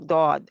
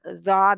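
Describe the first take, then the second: First: The letter name starts with a heavy d sound. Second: The letter name starts with a z sound. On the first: The speaker calls it right. "दौद ही कहना है इसको" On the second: The speaker calls it wrong. "तो अपना जाद आज से छोड़ दें"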